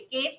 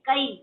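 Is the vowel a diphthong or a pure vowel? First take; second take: pure vowel; diphthong. First: The vowel is a single pure vowel. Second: The vowel glides as a diphthong. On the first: The speaker calls it wrong. "केस नहीं" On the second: The speaker calls it right. "ये इसको हर्फ लीन कहते हैं"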